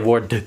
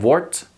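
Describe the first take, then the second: First: The ending is said as D followed by T. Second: The ending is said as a plain T. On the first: The speaker calls it wrong. "So so you don't say wordt" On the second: The speaker calls it right. "just pronounce it as a T"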